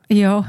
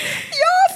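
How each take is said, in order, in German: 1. Es wird flach gesagt, mit wenig Interesse. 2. Es wird eifrig gesagt, mit lebhafter Energie. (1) "bei einem, der mich nicht interessiert, bin ich dann schon nicht so" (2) "bei einem, den ich super finde"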